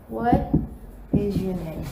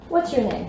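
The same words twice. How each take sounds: First: "What is" as two separate words with a pause; careful full "What is your name?"; uncontracted form. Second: "What's" run together as one syllable; quick, joined-up "What's your name?"; contracted form. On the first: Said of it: "isso aqui também dá pra gente contrair". ("What is" por extenso, pausado) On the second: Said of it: "tanto na escrita quanto na pronúncia". ("What's" contraído, como na fala) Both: Shown as a demonstration.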